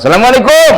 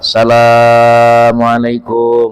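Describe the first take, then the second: First: It is said short and plainly, like a guest. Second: The vowels are stretched long, like a beggar's call.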